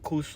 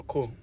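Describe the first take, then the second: First: "course" pronounced "koos"; final s sounded. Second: "course" pronounced "koo"; final s silent. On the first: Weighing pronunciations aloud for viewers, "course" with s sounded. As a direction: end "course" on an audible s. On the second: Weighing pronunciations aloud for viewers, "course" with s dropped. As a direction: end "course" on the open vowel, no s. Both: Shown as a demonstration. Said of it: "I think "course" or "course".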